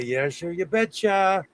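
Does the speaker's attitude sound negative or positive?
negative. The phrase sounds grudging and negative. The speaker does not really agree.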